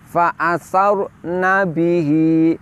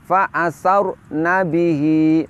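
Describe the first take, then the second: Both takes have the same delivery.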